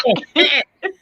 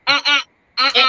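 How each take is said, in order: First: Higher, sing-song uh-uh; playful copy of refusal. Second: Mock firm refusal. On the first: Retold or imitated. Host copying the mother's refusal playfully. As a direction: mimic her playfully. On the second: Mother re-doing her firm uh-uh for the host. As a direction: echo the refusal lightly. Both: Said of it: "Was it".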